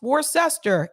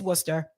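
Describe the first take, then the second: First: Every written syllable of the name is pronounced. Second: The name is said in shortened form. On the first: It is read off the spelling. The speaker calls it wrong. "If some of you are reading this and you're like, that's pronounced" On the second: It is how locals say it. The speaker calls it right. "it's Worcester"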